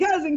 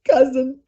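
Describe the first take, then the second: First: It is said in a joyful tone. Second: It is said in a sad tone. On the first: "I'll say joy" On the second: "I'll say sadness"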